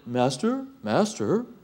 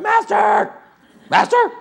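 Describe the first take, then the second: First: It is said in a calm, solemn, pious tone. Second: It is said in an urgent, frightened, panicked tone. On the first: It is the reverent way the passage is often read. The speaker calls it wrong. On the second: They were terrified of sinking. The speaker calls it right.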